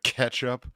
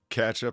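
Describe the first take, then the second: First: The first syllable sounds like 'ketch'. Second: The first syllable sounds like 'catch'. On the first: "instead of ketchup" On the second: "catch up instead of ketchup"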